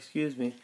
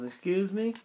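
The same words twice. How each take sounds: First: It sounds like politely calling for someone's attention. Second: It sounds offended, like reacting to a rude remark.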